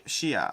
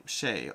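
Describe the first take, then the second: First: "Shea" said in two syllables, shee-ah; trial pronunciation. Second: "Shea" as one syllable, shay, low and soft; trial pronunciation. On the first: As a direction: try "Shea" with an ee-ah ending. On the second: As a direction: let "Shea" drop quietly, rhyming with day. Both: Shown as a demonstration. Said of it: "I'm terrible with names pronunciation".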